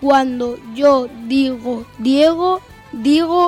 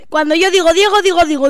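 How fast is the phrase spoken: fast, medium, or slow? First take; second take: slow; fast. First: The phrase is spoken at a slow pace. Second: The phrase is spoken at a fast pace. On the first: "Velocidad lenta" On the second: "Velocidad rápida. La más rápida"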